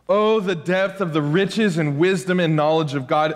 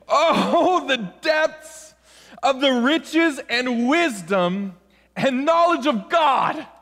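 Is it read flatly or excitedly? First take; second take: flatly; excitedly. First: It is read in a plain, flat way. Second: It is read with strong, exclamatory excitement.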